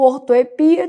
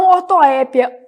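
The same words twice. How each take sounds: First: Ortoepia stressed on PI. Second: Ortoépia stressed on open É. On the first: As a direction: lean on the I in ortoepia. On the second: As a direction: hit the É in ortoépia. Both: Shown as a demonstration. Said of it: "também posso chamar de ortoepia".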